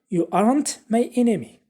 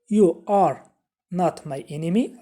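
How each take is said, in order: First: Two words merge into one contraction. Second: Every word is said separately, not contracted. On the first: "Instead of saying" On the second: "a full form"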